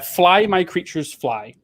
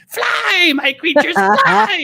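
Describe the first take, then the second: First: It is read out flatly, without drama. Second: It is proclaimed dramatically, with energy.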